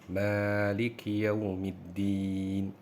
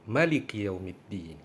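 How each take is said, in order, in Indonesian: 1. Vokal pertama 'ma' dibaca panjang. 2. Vokal pertama 'ma' dibaca pendek. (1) "ma-nya panjang" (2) "Boleh dibaca pendek"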